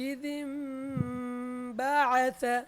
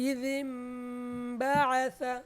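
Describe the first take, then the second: Both takes have the same delivery.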